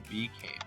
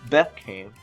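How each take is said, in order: First: The first syllable has a long E vowel. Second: The first syllable has a short E vowel. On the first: The speaker calls it right. "we say became" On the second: The speaker calls it wrong. "We don't say became"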